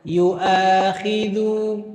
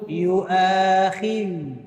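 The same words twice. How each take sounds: The two takes are said the same way.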